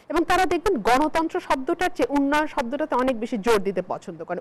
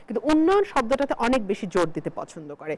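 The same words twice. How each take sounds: First: Said in the usual way. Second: উন্নয়ন pushed out with weight at the start; উন্নয়ন stressed with a pointed, ironic edge. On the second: Real, not acted. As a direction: lean hard on the word উন্নয়ন, then let the rest fall. Repeats the point, pressing উন্নয়ন.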